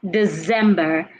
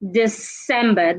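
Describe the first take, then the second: First: The c is said with a z sound. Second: The c is said with an s sound. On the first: The speaker calls it wrong. "Do not say December. ... Letter C do not sound like Z" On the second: The speaker calls it right. "The right word is December. The C sounds like S"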